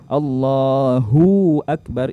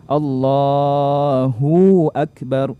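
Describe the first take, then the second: First: The hu syllable is drawn out long. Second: The same.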